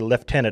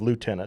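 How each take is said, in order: First: It is said with a British-style pronunciation. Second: It is said with an American-style pronunciation.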